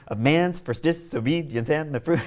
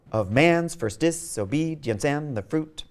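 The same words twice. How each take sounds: First: "of man's first disobedience and the fruit" with "first" clearly accented; natural reading. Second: "Of man's first disobedience and the fruit" slow, with "first" left unstressed; forced iambic reading. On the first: Lecturer rereading line one so "first" carries the stress. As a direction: let "first" take the beat in "of man's first disobedience". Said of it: "It sounds stupid".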